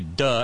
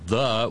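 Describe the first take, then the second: First: The word begins with a hard 'd' sound. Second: The word begins with a soft 'th' sound. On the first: "we say duh, as in duh Bronx" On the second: "in New York we don't say the"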